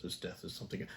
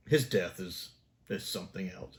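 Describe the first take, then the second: First: Whispered, much softer aside. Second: Said in the usual way. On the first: Real, not acted. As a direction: breathe it like a secret. Repeats remark, then whispers it.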